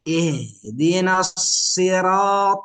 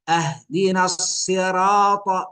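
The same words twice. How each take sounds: First: The first word begins with an 'i' vowel. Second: The first word begins with an 'a' vowel. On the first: Guide us to the straight path. The speaker calls it right. "هكذا القراءة الصحيحة" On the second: Give us the straight path as a gift. The speaker calls it wrong. "الفرق فتح الهمزة"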